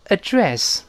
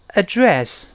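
The two takes are said the same way.

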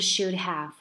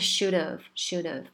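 First: The word 'have' is pronounced in full. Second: The word 'have' is reduced to a weak vowel. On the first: The speaker calls it wrong. "它不是should have" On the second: The speaker calls it right. "它是should have，它就整个把have 变成了ev"

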